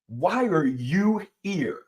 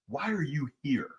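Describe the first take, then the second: First: The question is said noticeably louder. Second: The question is said at normal volume.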